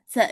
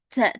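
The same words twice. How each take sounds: First: The consonant has a strong, exaggerated puff of air. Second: The same.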